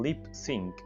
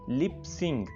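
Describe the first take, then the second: First: The second word ends with a k sound. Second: The second word ends with an ng sound. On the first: The speaker calls it right. "Lip सिंक बोलना है" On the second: The speaker calls it wrong. "इसको बोला जाता है lip सिंग, lip सिंग, right, लेकिन वो गलत है।"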